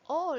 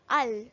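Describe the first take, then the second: First: The vowel is long, like in 'ball'. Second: The vowel is short, like in 'pal'. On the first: This is the real word. The speaker calls it right. "We we pronounce it as all" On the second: The letter sounds are simply blended together. The speaker calls it wrong. "There's no word just like that"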